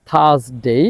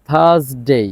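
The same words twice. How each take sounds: Both takes have the same delivery.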